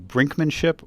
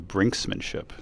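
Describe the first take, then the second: First: There is no s sound after brink. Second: There is an s sound after brink. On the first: The speaker calls it right. "It's brinkmanship" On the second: The speaker calls it wrong. "they're saying it wrong"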